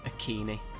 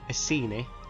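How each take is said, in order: First: The C is said hard, like a K. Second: The C is said soft, like an S. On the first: This is the Latin pronunciation. "the Latin way, with a hard C" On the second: This is the English pronunciation. "the English way, with a soft C"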